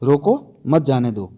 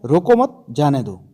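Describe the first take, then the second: First: Slow, with "रोको" alone, then "मत जाने दो" as one phrase; pause after "रोको". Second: "रोको मत" run together, a pause, then "जाने दो"; pause after "मत". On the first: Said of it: "देखो, रोको के बाद". ("रोको" के बाद ठहरकर "मत जाने दो" एक साथ) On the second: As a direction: keep "मत" with "रोको", break before "जाने दो". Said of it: "दूसरा है". ("रोको मत" एक साथ, फिर ठहरकर "जाने दो") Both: Shown as a demonstration.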